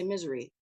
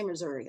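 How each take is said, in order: First: It is pronounced so it sounds like misery. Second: It is pronounced the standard way, Missouri. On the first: "I say misery" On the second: "I never say Missouri"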